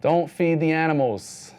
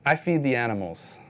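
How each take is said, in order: First: Don't said loud and slow, like a posted sign; slow, loud sign-like Don't feed the animals; stress on DON'T. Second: Feed stressed, said in plain voice; calmly defiant I feed the animals. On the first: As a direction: bark Don't like a zoo warning. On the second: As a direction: answer the sign by leaning on feed. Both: Shown as a demonstration.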